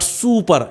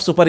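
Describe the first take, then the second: First: Super with a long "soo"; drawn-out "soo" in super; long-vowel super. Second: Super with a short u; short-vowel super; wrong short super. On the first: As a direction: stretch the first vowel of super. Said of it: "it is longer vowel". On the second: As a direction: keep the first vowel of super short: "su-per". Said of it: "is not super". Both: Shown as a demonstration.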